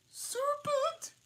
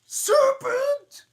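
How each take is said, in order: First: Piercing high pigeon shriek. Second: Screeching high scream of a bird; 비둘기처럼 새된 비명; shrieking pigeon. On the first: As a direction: shriek it like an angry bird. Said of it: "that's better". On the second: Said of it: "gotta do a Williams voice". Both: Acted.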